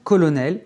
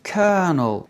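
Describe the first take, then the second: First: COLONEL said the French way, "ko-lo-nel"; French "colonel", ending up; French pronunciation. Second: COLONEL said like "kernel"; English "colonel" with the middle swallowed; English pronunciation. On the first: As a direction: say colonel with three full French syllables. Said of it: "d'origine française". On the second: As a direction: say colonel in two syllables, ker-nel. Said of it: "qui se prononce en anglais". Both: Shown as a demonstration.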